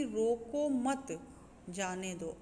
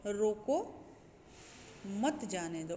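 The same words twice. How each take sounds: First: "रोको मत" run together, a break, then "जाने दो"; pause after मत. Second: "रोको" alone and rising, a long break, then "मत जाने दो"; long comma pause after रोको, before मत. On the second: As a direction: split off रोको, then run मत जाने दो together. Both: Shown as a demonstration. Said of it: "comma लगाए".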